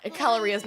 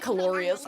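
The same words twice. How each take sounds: First: Calorías with stress on the í, ca-lo-RÍ-as; correct Spanish. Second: Calorias said English-style, stress on lo, ca-LO-rias; wrong pronunciation. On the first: Streamer correcting herself to chat, calorías stressed on the í. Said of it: "not calorias". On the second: Streamer repeating her earlier mistake, calorias with English stress on LO. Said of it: "I don't know why I said calorias". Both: Shown as a demonstration.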